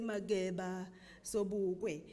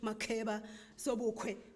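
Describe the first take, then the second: First: The consonants are said without a puff of air. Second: The consonants are said with a puff of air. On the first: This is how the speaker's own people say the names. The speaker calls it right. "we continue to say" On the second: This is how an English reader says the names. The speaker calls it wrong. "The English reading person will naturally aspirate"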